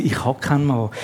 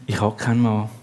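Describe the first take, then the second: First: Resigned. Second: Low, quiet, resigned admission; woman admitting quietly she has no husband. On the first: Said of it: "Und darum sagt sie". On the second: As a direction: let it sink in defeat. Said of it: "ganz resigniert". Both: Acted.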